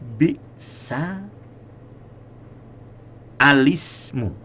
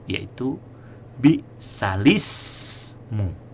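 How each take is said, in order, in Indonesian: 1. Ada vokal "a" tambahan yang diucapkan sebelum L. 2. Tidak ada vokal sebelum L; dibaca "lismu". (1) "memulai hamzah wasol dengan dibaca fathah dan kasroh lamnya" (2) "menghilangkan hamzah wasol dan kemudian memulainya dengan lam yang dikasroh"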